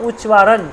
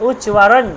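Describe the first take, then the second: Both takes have the same delivery.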